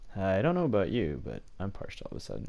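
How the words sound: It is said in a put-on voice imitating Adair.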